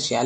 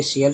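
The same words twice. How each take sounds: First: "शियाल" said shi-yaal, long final vowel; shi-yaal pronunciation. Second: "शीयल" said shee-yal, short final vowel; shee-yal pronunciation. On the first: Teacher offering the other allowed reading of TIAL, shi-yaal pronunciation. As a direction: stretch the a in "शियाल" to aa. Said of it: "शियाल भी बोल सकते हैं". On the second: Teacher giving the usual reading of TIAL, shee-yal pronunciation. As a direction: say "शीयल" with a short a in the last syllable. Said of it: "शीयल बोलते हैं". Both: Shown as a demonstration.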